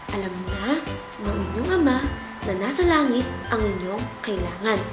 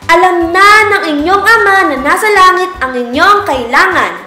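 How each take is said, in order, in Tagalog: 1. Binibigkas ito nang mahina ang boses. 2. Binibigkas ito nang malakas ang boses. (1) "Isa, ibig sabihin mahina na boses" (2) "tatlo, ibig sabihin malakas na boses"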